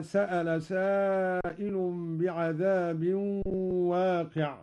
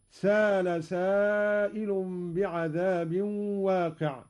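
First: Said in the usual way. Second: "سأل" as saala, one long a without glottal stop; no hamza. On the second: Shown as a demonstration. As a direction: glide through "سأل" as سال, reciting slowly. ("سأل" بإبدال الهمزة ألفًا) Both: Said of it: "قرأ قالون بدون همز هكذا".

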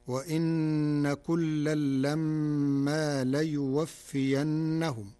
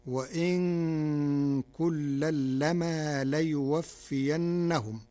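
First: Slow recited verse with doubled nun and mim; standard reading. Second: Slow recitation, "وإن" with a still single nun; Warsh reading. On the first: Sheikh quotes the Hud verse before explaining Warsh, slow recitation with doubled consonants. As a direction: hold long nasal doubled consonants in "وإن" and "لما". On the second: Sheikh demonstrates the resulting Warsh verse, slow recitation with lightened "وإن" and "لما". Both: Shown as a demonstration. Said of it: "قرأ ورش كلمة وإن بتخفيف النون ساكنة".

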